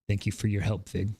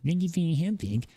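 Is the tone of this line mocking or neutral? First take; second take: neutral; mocking. First: It is read in a plain, neutral tone. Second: It is read in a mocking, sarcastic tone.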